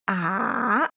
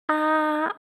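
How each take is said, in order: First: The pitch falls low, then rises again. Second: The pitch stays high and level throughout. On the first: "It sounds descending first and then ascending" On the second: "the first tone sounds quite even and flat"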